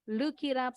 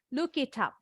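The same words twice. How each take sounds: First: The words run together with a soft t. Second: The t in 'it' is clearly pronounced. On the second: "gaya British English bunyinya T jelas"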